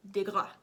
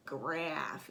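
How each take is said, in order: First: "DeGraff" with a light "De" and the stress on "Graff"; right pronunciation. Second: "Graff" said as one short syllable; just "Graff", one clipped syllable, no prefix; wrong version. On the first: Vlogger corrects the designer's name for viewers, stress on the second syllable. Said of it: "it was like DeGraff". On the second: Vlogger shows viewers the wrong way to say the designer's name, one clipped syllable. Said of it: "it was not like Graff". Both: Shown as a demonstration.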